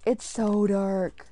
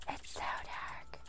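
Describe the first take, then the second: First: Said in the usual way. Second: Slow, hushed whisper; very soft, drawn-out whisper; uneasy whisper. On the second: Real, not acted. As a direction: whisper it slowly into the dark. Whispered repeat in the dark.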